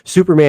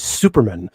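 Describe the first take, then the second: First: It is said like the usual English name. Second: It is said like a Jewish family surname.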